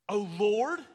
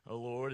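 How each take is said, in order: First: It is said in an angry, sarcastic tone. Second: It is said in a calm, even tone. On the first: The one praying is seething with resentment. The speaker calls it right. "you hear the sarcasm in there" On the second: A humble, sincere prayer. The speaker calls it wrong. "One of my pet peeves is whenever people will read this"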